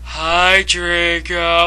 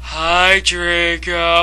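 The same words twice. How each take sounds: First: The greeting sounds flat and depressed. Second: The greeting sounds flat and depressed.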